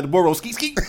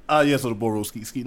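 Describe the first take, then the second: First: "The Boro skeet, skeet" chanted with hype; right way. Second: Lower, prim "Ah, yes, so the Boro skeet, skeet"; posh wrong way. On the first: Friend showing the right hype way to chant it. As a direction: belt it like a party chant. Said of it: "you gotta say it like that". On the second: Friend showing the wrong proper way, prim and low. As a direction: say it stiff and proper. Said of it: "You can't say". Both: Shown as a demonstration.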